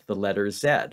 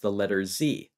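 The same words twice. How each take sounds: First: The letter is pronounced zed, Canadian style. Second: The letter is pronounced zee, American style.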